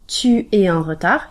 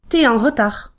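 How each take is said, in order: First: The U of tu is fully pronounced. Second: The U of tu is dropped entirely.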